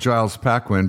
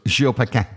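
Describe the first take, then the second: First: The name is said with an American pronunciation. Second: The name is said with a French pronunciation. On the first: "If you're American, you would call him" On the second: "but he's French, so it's"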